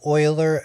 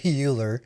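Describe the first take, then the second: First: The name does not rhyme with Bueller. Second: The name rhymes with Bueller. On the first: The speaker calls it right. "it's pronounced Euler" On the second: The speaker calls it wrong. "I used to say Euler. Sounds like Bueller"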